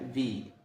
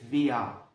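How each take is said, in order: First: The word ends on the vowel, with no r. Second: The word ends with an a-like vowel. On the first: This is how natives say it in fast speech. "لما بيجوا يتكلموا بسرعة... حرف الإغ اللي في الآخر ده ما بيتنطقش" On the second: This is the form heard a little later on. "بعد كده شوية هتسمعها"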